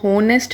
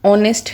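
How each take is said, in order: First: The word begins with an h sound. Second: The word begins directly with a vowel sound. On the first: The speaker calls it wrong. "हो की आवाज़ नहीं है यहाँ पे" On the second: The speaker calls it right. "ऑनेस्ट है"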